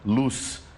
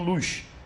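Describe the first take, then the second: First: The final consonant sounds like s. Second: The final consonant sounds like sh. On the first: This is how it is said in Brazil. "O Z com som de S" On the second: This is how it is said in Portugal. "O Z com som de S H ou X"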